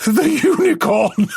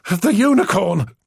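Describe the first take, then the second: First: High, slower laughing shout; crying with laughter; spluttering laughter. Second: Said in the usual way. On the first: Acted. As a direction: burst out laughing on the word. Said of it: "He spluttered as he tried".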